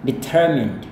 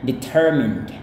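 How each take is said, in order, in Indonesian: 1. Itu diucapkan tanpa bunyi R. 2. Itu diucapkan dengan bunyi R. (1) "kalau mau pakai British itu dia kayak gini" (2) "kalau Amerika dia punya ada R-nya"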